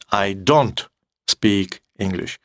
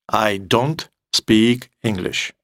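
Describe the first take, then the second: No difference in how they are said.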